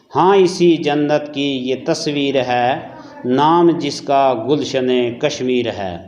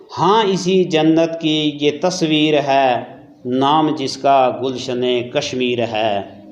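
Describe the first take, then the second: Both takes have the same delivery.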